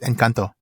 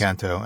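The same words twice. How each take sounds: First: The word is said with a Spanish pronunciation. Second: The word is said with an English pronunciation. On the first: The speaker calls it right. "her Spanish pronunciation is already better than mine" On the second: The speaker calls it wrong. "I called it Encanto"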